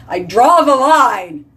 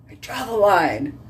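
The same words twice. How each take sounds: First: High, loud, slow line; emphatic declaration. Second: Said in the usual way. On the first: Real, not acted. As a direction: declare it firmly.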